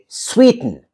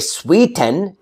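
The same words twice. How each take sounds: First: The vowel between T and N is reduced. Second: The vowel between T and N is full. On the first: The speaker calls it right. "I say sweeten" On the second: The speaker calls it wrong. "I don't say sweeten"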